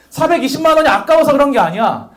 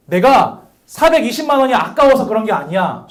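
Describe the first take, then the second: First: Higher, louder insistent denial; friend insisting. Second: Said in the usual way. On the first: Retold or imitated. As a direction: protest too much, unconvincingly. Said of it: "솔직히 아까웠겠죠". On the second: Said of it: "그랬더니 그 친구가".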